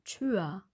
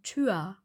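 First: The word ends in an open A-like sound. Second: The same.

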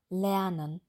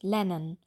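First: The first syllable keeps a vocalized r sound. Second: The first syllable drops the r completely. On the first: The speaker calls it right. "sagen wir schon ler" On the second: The speaker calls it wrong. "Da sagen wir nicht lennen"

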